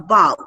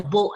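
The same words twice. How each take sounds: First: "bow" rhyming with cow; bow like bough. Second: "bow" rhyming with go; long-o bow. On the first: Teacher contrasting taking a bow, "bow" rhyming with cow. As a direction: say "bow" with an ow sound. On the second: Teacher contrasting bow and arrow, "bow" rhyming with go. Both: Shown as a demonstration. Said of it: "same spelling but has different meaning".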